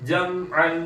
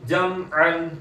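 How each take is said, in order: The two takes are said the same way.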